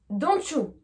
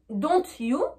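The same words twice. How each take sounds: First: The t and y merge into a ch sound. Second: The t and y are said separately. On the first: The speaker calls it right. "Prononciation anglaise" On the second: The speaker calls it wrong. "Prononciation française"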